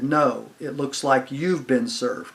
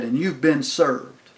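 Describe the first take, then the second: First: Slow retort stressing "you've"; turning it back. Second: Slow, deliberate "you've been SERVED"; official pronouncement. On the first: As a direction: hand the line back, leaning on "you've". Friend turns officer's line back. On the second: Officer formally serves the paper. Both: Retold or imitated.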